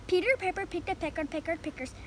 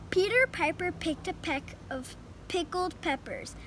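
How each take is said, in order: First: It is said faster. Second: It is said at a normal, slower pace.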